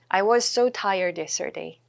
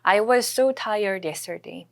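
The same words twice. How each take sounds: First: "was so" run together on one s; linked s sound. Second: "was so" joined on a single s, said slowly; linked s sound. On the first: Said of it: "연음 처리하시고". ("was so" 이어서 발음) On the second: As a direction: blend "was" into "so" with one s. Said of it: "was랑 so가 여기 S 사운드가 좀 비슷하게 묶이기". ("was so" 연음으로 s 한 번만) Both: Shown as a demonstration.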